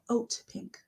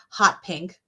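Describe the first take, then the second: First: The first word begins with a vowel sound. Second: The first word begins with an h sound. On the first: The speaker calls it right. "It's oat, like oatmeal" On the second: The speaker calls it wrong. "I called it hot pink"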